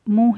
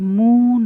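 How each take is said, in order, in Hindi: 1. 'u' स्वर छोटा रखा जाता है। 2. 'u' स्वर को लंबा खींचा जाता है। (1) "तो इसको मुँह मुँह ही निकलना चाहिए" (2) "मुँह ना निकले"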